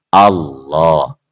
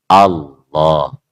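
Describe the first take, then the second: The two takes are said the same way.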